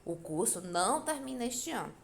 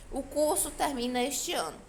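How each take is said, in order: First: "O curso não termina este ano" with weight on NÃO; negative statement. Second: "O curso termina este ano" raised, loud, falling at the end; affirmative statement. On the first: Teacher giving a negative example, stress on não. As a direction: lean on "não", then fall away. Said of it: "É uma frase negativa". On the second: Teacher giving an affirmative example, declarative intonation. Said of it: "É afirmativa". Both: Shown as a demonstration.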